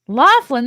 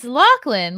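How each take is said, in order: First: The middle is said with an F sound. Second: The middle is said with a throaty ch sound. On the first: The speaker calls it wrong. "There's no F anywhere" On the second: The speaker calls it right.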